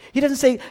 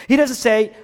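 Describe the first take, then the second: No difference in how they are said.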